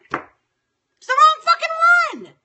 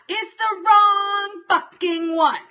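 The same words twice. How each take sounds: First: Much higher, louder, slow shriek of rage; furious shout. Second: Loud, higher, slow seething complaint; angry. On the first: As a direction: scream it, losing it completely. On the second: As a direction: grind it out, building anger. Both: Real, not acted. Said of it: "I was in a moment of anger".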